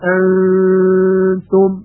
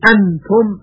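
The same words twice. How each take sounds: First: The n is hidden with a nasal hum. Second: The n is pronounced clearly with the tongue tip. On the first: The speaker calls it right. "یک حالت بین بین داره، یعنی بین اظهار و بین ادغام" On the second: The speaker calls it wrong. "یعنی نون اظهار نمیشه، انتم غلط هست"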